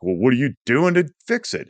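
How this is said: It is asked in a condescending, judgmental tone.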